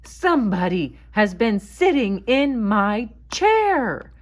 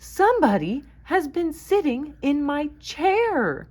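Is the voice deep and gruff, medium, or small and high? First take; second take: deep gruff; medium. First: It is said in a deep, gruff voice. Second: It is said in a medium voice.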